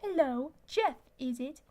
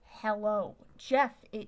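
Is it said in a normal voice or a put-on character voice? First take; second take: character voice; normal voice. First: It is said in a put-on character voice. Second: It is said in his normal voice.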